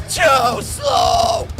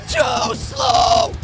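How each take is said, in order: Both takes have the same delivery.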